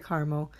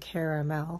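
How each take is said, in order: First: The word is said in a shorter, quicker form. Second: The word is said in a longer, fuller form. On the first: "I say caramel because I feel like it's a lot faster" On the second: "That's like a lot of, I don't know, pronunciation you have to do"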